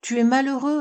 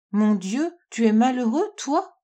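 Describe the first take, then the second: First: Plainte plus aiguë, sans vrais sanglots; la fille s'afflige pour son père; sanglots suggérés. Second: La fille s'écrie, bouleversée pour son père; exclamation inquiète. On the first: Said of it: "répondit Diane en sanglotant". (légèrement éploré, voix haute) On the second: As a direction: question alarmée qui monte sur la fin. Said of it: "s'écria Diane en se jetant dans ses bras". (exclamation inquiète, interrogative) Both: A narrator's reading.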